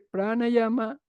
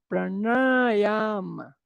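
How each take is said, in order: First: The vowels are short, with a plain n. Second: The vowels are held long, with a retroflex n. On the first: "lo recito como hablamos en Occidente" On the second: "la pronunciación correcta sería"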